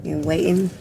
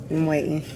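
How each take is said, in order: Both takes have the same delivery.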